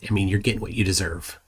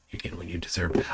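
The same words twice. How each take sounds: First: Said in the usual way. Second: Whispered, much softer repeat. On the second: Real, not acted. Streamer repeating it to Dave in a whisper. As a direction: breathe it out like a secret jab.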